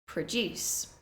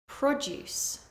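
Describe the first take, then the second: First: The stress is on the second syllable. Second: The stress is on the first syllable. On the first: It is a verb. "the verb form, stressing the second syllable" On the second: It is a noun. "the noun form, stressing the first syllable"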